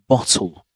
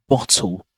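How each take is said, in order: The two takes are said the same way.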